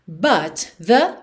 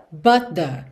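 First: BUT THE in two parts, T released; separate words. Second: BUT THE joined, T held back; linked words. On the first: Teacher breaking down the lyric, BUT THE word by word. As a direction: say BUT, then THE, each on its own. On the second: Teacher modelling the link, BUT THE as one unit. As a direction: run BUT straight into THE as one sound. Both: Shown as a demonstration. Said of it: "Você junta num som só".

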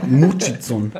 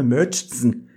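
First: "Murchison" with a German u and tz; mock-read "Murchison" as Murtschitzon; German-style misreading. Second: Said in the usual way. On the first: Reader echoing partner's slip, "Murchison" as Murtschitzon. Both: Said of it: "Ist auch ein scheiß Name".

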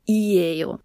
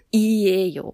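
First: "Iejo" said slowly, falling; careful Korean ending; demo ending. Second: "Iejo" said carefully and falling; careful Korean ending; demo ending. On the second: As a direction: model "Iejo" after a consonant. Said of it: "endet man auf einem An". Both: Shown as a demonstration.

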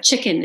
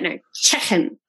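First: Said in the usual way. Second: "chicken" with a Liverpool vowel, "checken"; Scouse "chicken" correction. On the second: Retold or imitated. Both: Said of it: "teaching me how to say chicken".

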